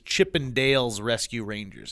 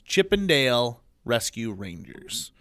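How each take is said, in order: First: An s sound follows the word Dale. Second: No s sound follows the word Dale. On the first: The speaker calls it wrong. "the thing that p- most people say wrong" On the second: The speaker calls it right. "It's not that. It's"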